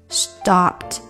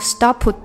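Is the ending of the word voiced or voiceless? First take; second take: voiceless; voiced. First: The ending is voiceless, short and quick. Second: The ending is voiced, with the vocal cords vibrating. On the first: The speaker calls it right. "这个p 它是一个空气音，所以你的声带就不能震动" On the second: The speaker calls it wrong. "你不能stopped"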